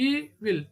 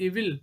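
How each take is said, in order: First: E - VIL, drawn apart; syllable by syllable. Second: Said in the usual way. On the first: Shown as a demonstration. Teacher showing a two syllable word, "Evil" split apart. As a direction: say "Evil" as two separate beats. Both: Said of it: "These are all called two syllabic".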